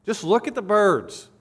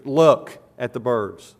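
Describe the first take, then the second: First: Pitched higher, "look" lifted and stressed; pleading imperative. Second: Slow, louder command, LOOK leaned on; "Look" pressed hard as an order; firm imperative. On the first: Preacher pressing the congregation, higher urgent plea. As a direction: urge them, voice rising on "look". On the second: Preacher urging the congregation, slow firm command. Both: Shown as a demonstration. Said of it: "It's an imperative in the Greek".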